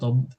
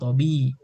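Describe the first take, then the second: First: No vowel follows the b sound. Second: A short i vowel follows the b sound. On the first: The speaker calls it wrong. "tidak tidak tob" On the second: The speaker calls it right. "tapi tobi"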